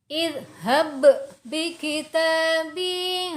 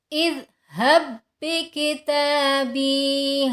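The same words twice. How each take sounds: First: The first b is released with an echoing bounce. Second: The first b merges into the second without bounce. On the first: The speaker calls it wrong. "Contoh yang kurang tepat, Qalqalahnya masih digunakan" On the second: The speaker calls it right. "ba yang pertama tidak dikolkolahkan lagi atau tidak dipantulkan lagi"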